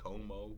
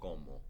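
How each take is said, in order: First: The O glides into a diphthong. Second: The O stays pure without gliding. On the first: The speaker calls it wrong. "beginning Spanish students will say como" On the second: The speaker calls it right. "We say como"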